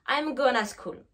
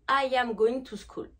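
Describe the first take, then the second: First: The words are shortened and run together. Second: Every word is said fully and separately. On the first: This is how people really talk in series. "La contraction" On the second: This is how the phrase is taught in class. "une phrase basique en anglais"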